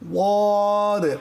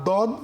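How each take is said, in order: First: It begins with a heavy, emphatic d sound. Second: It begins with a plain, light d sound. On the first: The speaker calls it right. "এর মাখরাজ হচ্ছে জিহ্বার গোড়ার কিনারা উপরের মাড়ির দাঁতের গোড়ার সঙ্গে লাগিয়ে" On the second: The speaker calls it wrong. "না দদ"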